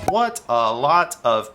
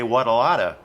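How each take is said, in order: First: The words are said slowly and separately. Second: The words run together quickly as one unit. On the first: The speaker calls it wrong. "sounds way too slow" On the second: The speaker calls it right. "combine all the words together"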